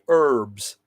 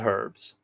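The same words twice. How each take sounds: First: The word begins without any H sound. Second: The word begins with an audible H sound.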